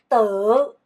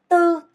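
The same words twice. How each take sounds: First: The syllable is said with a tone contour. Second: The syllable is said on a flat pitch.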